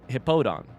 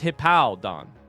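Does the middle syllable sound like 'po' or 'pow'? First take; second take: po; pow. First: The middle syllable is said like 'po'. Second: The middle syllable is said like 'pow'. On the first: "It's not Hippodon" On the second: "But instead it's Hippowdon"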